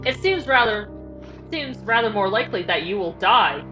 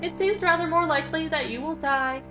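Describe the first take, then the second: First: It is spoken in a plain narrator voice. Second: It is spoken in a put-on character voice. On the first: The speaker calls it right. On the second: The speaker calls it wrong.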